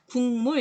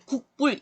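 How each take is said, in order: First: 국물 said slowly as "gung-mul"; nasal assimilation. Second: 국불 with a hard k stop before the second syllable; unassimilated spelling pronunciation. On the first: Teacher showing students the natural reading, nasal assimilation. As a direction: turn the k of 국물 into an ng. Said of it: "이렇게 하죠". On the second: Teacher showing students what nobody says, unassimilated spelling pronunciation. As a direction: say 국불 letter by letter, without nasalizing. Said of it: "이러는 사람 아무도 없어요". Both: Shown as a demonstration.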